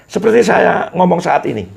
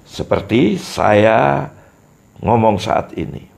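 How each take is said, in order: First: High, loud demo line with falling tune; rhythm demo. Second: Said in the usual way. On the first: Shown as a demonstration. Teacher showing speech rhythm, high and lively. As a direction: sing the phrase out with a rising then falling melody. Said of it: "Setiap orang harus mempunyai irama". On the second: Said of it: "Ini contoh, sudah contoh irama".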